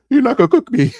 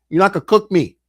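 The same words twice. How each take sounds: First: High, tearful mock protest; voice cracking. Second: Said in the usual way. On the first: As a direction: act out a voice breaking on the edge of tears. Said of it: "My voice started cracking". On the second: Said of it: "yo, my voice started shaking".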